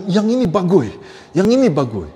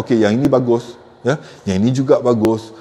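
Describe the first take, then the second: First: "yang ini bagus" with varied, emphatic tune; lively intonation. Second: Low, level "bagus" with no lift; flat intonation. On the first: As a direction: stress on "ini", pitch rising then falling on "bagus". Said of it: "Intonasi aku rendah". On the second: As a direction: say "yang ini bagus" without any rise. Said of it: "Jangan flat". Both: Shown as a demonstration.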